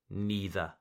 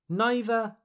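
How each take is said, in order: First: Neither with a long E; NEE-ther. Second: Neither with a long I; NIGH-ther. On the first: Teacher repeats second option, neither as NEE-ther. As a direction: start neither like knee. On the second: Teacher repeats first option, neither as NIGH-ther. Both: Shown as a demonstration. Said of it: "The same goes for neither".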